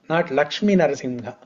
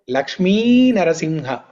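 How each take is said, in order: First: The first name ends in a short vowel. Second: The first name ends in a long vowel. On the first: The speaker calls it wrong. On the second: The speaker calls it right. "the females are described using long syllable"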